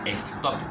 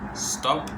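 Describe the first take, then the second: First: An extra vowel sound comes before the s. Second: The word starts directly with the s sound. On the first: The speaker calls it wrong. "yo no digo stop, no" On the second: The speaker calls it right.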